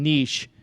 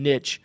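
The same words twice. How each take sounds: First: The word does not rhyme with a swear word. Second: The word rhymes with a swear word. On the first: The speaker calls it right. "Now I'm saying niche, just to to be better" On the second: The speaker calls it wrong. "it rhymes with the bad word"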